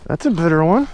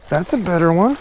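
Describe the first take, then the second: No difference in how they are said.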